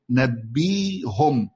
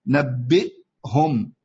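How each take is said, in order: First: نبيهم stretched out, nabeehum with no glottal stop; hamza as ya. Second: نبئهم drawn out, hamza clearly heard. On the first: Teacher showing the ya substitution, slowly recited. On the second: Teacher repeating the original hamza form for students. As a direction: say نبئهم very slowly with the glottal stop kept. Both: Shown as a demonstration. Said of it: "أبدلنا الهمزة إلى ياء".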